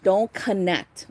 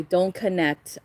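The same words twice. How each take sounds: First: "Don't connect" said slowly, leaning on "Don't"; slow down and press "Don't"; firm, slow warning on "Don't"; slow stress on Don't. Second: Said in the usual way. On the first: Shown as a demonstration. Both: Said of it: "just watch".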